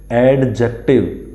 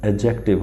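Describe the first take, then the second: First: "एडजेक्टिव" with the D wrongly sounded before J; wrong pronunciation. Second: "एडजेक्टिव" with a silent D before J; correct pronunciation. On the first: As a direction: say "एडजेक्टिव" as ad-jective, D fully pronounced. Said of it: "नहीं होता है". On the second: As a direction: say "एडजेक्टिव" as a-jective, no separate D. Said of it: "होता है". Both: Shown as a demonstration.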